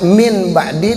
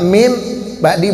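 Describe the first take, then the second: First: The first word ends with an n sound. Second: The first word ends with an m sound. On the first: This is the form as originally written. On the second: This is how it is read aloud. "dibaca mim ba'di, berubah hurufnya jadi mim"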